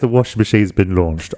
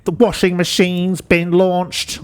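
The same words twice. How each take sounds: First: It is said in a normal voice. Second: It is said in a robotic Dalek-like voice.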